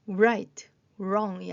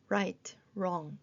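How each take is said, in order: First: Right, wrong with an added "oo-r" onset, loud; mispronounced with W sounded. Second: Right, wrong starting straight on R; silent W. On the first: Teacher showing the wrong reading, Right, wrong with voiced W. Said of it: "아니고". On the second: Teacher correcting the reading, right, wrong with silent W. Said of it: "이렇게 소리가 나면서". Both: Shown as a demonstration.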